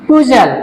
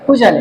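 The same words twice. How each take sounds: First: Said in the usual way. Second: পুজাল broken in two, পু, pause, জাল; split into syllables. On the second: Shown as a demonstration. Teacher showing two syllables here, পুজাল split as পু - জাল. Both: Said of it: "এখানেও দুটো syllable আছে".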